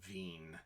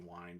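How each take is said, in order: First: The word begins with a V sound. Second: The word begins with a W sound. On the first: The speaker calls it right. "where this is a V sound, and the the I E would be pronounced as a long E" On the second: The speaker calls it wrong. "I know you think it, you'd be Wien"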